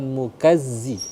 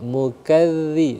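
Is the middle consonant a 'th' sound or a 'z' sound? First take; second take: z sound; th sound. First: The middle consonant is a buzzing 'z' sound. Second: The middle consonant is a soft 'th' sound. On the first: The speaker calls it wrong. "bukan mukazzi" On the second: The speaker calls it right. "mukadzi bukan mukazzi tapi mukadzi"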